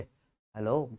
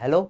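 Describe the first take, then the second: First: It is said in a sweet, loving way. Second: It is said in a plain, ordinary way.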